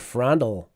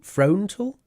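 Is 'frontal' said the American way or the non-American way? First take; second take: American; non-American. First: It sounds like American 'frandle'. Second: The O in the word is stressed. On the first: The speaker calls it right. "the Americans don't say that. They would say frandle" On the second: The speaker calls it wrong. "I actually kind of stress the O"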